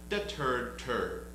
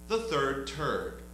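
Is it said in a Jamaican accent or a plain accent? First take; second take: Jamaican; plain. First: It is said in a Jamaican accent. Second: It is said in a plain, unaccented voice.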